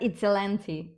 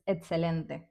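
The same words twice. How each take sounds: First: The vowels sound English-like and reduced. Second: The vowels sound clear and fully Spanish. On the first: The speaker calls it wrong. "it's not excelente" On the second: The speaker calls it right. "it's excelente"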